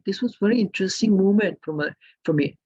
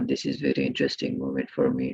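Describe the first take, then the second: First: It is lively, with a rising, varied tune. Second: It is flat, with little change in pitch. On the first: The speaker is showing real feeling. The speaker calls it right. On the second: The speaker sounds like they are just reading. The speaker calls it wrong.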